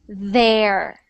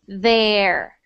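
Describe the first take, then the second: First: The first sound is a soft th. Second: The same.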